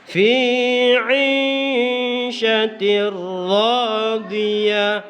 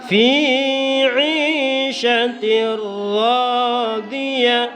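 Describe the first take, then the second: The two takes are said the same way.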